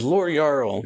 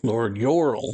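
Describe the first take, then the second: First: Jarl said as "Yarl"; mistaken pronunciation. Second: Jarl said as "Yorl"; self-correcting Jarl to "Yorl"; corrected pronunciation. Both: Real, not acted. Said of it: "not Jarl".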